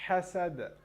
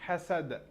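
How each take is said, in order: No difference in how they are said.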